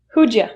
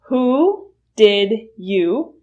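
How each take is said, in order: First: The words blend together into a shortened form. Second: Each word is said fully and separately. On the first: "reduce to who'd ya" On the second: "Who did you will reduce to"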